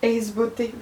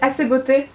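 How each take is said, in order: First: The first word sounds like English 'ace', one syllable. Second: The first word sounds like French 'assez', two syllables. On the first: This follows the spelling. "pour moi c'est Ace comme en anglais" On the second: This is the pronunciation others use. "j'ai entendu Assez Beauté"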